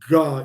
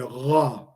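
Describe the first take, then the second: First: The consonant is a hard, fully closed g. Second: The consonant is an open, deep throat sound. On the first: The speaker calls it wrong. "instead of Ga" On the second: The speaker calls it right. "you never fully close your throat"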